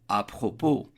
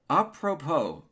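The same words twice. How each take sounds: First: It is said with a French accent. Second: It is said with an American accent. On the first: "en français"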